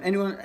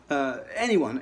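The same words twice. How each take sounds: First: Anyone repeated higher and louder, punched; stress on anyone. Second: Said in the usual way. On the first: Shown as a demonstration. Musician insisting players copy anyone, stressed anyone. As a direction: hit anyone hard the second time.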